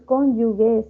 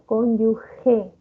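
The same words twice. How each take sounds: First: The middle consonant is a hard g sound. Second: The middle consonant is a rasping h sound. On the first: The speaker calls it wrong. "y no es cónyuge" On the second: The speaker calls it right. "sino cónyuge"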